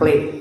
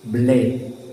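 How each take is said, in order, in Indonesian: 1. Kata ini diawali bunyi P. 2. Kata ini diawali bunyi B. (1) "bukan play" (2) "maka B"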